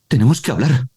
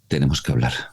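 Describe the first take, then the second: First: It is said with a surprised tone. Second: It is said with a sad tone.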